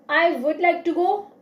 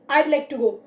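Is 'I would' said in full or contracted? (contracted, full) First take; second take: full; contracted. First: Both words 'I would' are said in full. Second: 'I would' is shortened to one syllable, 'I'd'. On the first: "We says I would like to go" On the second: "Native speakers says I'd like to go"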